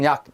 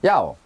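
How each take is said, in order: First: The word ends with a clipped final k sound. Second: The final k is dropped, ending in an open vowel. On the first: "제가 우리 발음합니다" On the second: "받침 없지요? 기억 없죠? ... 야로 만들어준 다음에 발음을 해보라고"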